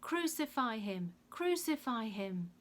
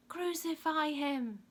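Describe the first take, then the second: First: Insistent mob chant, raised pitch; louder crowd yell. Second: High, loud, drawn-out mob yell. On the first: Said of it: "The crowd yelled all the louder". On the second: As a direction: yell it as a crowd would. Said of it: "they yelled". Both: A narrator's reading.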